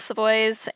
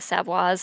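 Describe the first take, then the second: First: The name is pronounced the anglicized, English way. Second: The name is pronounced the non-anglicized, foreign way. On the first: The speaker calls it wrong. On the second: The speaker calls it right.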